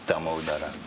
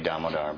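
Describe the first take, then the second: First: The name ends with a final vowel. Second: The name ends on the r sound. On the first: This is the original, proper way of saying it. The speaker calls it right. "the proper pronunciation is Damodara" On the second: This is the common English way of saying it. The speaker calls it wrong. "in English we say Damodar"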